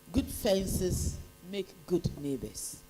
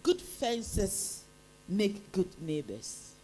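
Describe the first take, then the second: No difference in how they are said.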